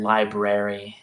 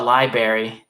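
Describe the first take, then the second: First: "library" said slowly with both r's, lie-brer-ee; careful pronunciation. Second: "library" with the first r dropped, lie-berry; childhood mispronunciation. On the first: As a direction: sound out "library" slowly in full. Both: Shown as a demonstration. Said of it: "another one I did as a kid".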